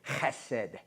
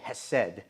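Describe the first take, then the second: First: The word starts with a harsh, throaty h sound. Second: The word starts with a plain, soft h sound. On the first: It is the proper Hebrew way of saying it. The speaker calls it right. "it's actually chesed. You know, heh, heh. You got to get that in there" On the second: It is the easier, anglicized way of saying it. The speaker calls it wrong. "in English, we say hesed ... We just use the H"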